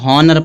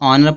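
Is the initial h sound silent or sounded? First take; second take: sounded; silent. First: The word begins with an h sound. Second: The word begins with a vowel, h silent. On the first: The speaker calls it wrong. "कुछ लोग इसको हॉनर पढ़ते हैं, हॉनर नहीं पढ़ा जाएगा" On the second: The speaker calls it right. "इसको ऑनर पढ़ा जाए"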